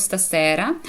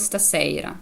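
First: "стасера" with voiceless s before "ера"; regional S variant. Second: "стасейра" with the stressed e gliding to ey; other regional variant. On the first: Teacher showing one region's way, "стасера" with plain s and e. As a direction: say "стасера" with a simple e, no glide. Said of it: "в деяких регіонах говорять". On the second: Teacher showing another region's way, "стасейра" with an ey glide. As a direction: say "стасейра" stretching e into ey. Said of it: "а в деяких регіонах говорять". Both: Shown as a demonstration.

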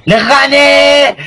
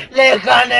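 First: Slow, drawn-out victory yell; triumphant shout. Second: Said in the usual way. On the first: Real, not acted. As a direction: stretch out the win, shouting. Gloating after winning match.

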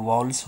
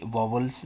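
First: वावल्स said as English "vowels", no middle v; correct pronunciation. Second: वावल्स mispronounced with a second v, like "vo-vels"; wrong pronunciation. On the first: Teacher correcting children's mistake, वावल्स pronounced properly as "vow-ls". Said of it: "वो वावल्स होता है". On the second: Teacher showing children their common mistake, वावल्स mispronounced as "vovels". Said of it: "वावल्स नहीं, वो वावल्स होता है". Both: Shown as a demonstration.

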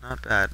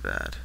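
First: Said in the usual way. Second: Much lower, mock-gruff echo; mock deep voice. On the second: Gamer looking at a house, mock deep echo. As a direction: drop it low like a gruff old man. Repeats phrase in two voices.

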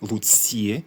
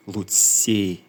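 First: «луці» ending in an i-e glide; «луці» said as lutsie; final diphthong. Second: «луці» ending in a single close e; «луці» said as lutse, with a tight e; narrow final vowel. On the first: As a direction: stretch the end of «луці» into ie. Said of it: "двозвук і". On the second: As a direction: end «луці» on a narrow e, no glide. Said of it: "а вузький і". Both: Shown as a demonstration.

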